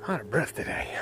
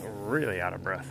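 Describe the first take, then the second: First: Breathless, half-whispered; barely getting the words out between breaths; winded whisper. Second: Louder, panting; breathless emphasis on really; out of breath. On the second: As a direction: push the words out between gasps. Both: Real, not acted.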